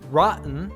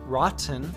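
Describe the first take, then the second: First: The T is a glottal stop. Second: The T is a fully released T. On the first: "a glottal T"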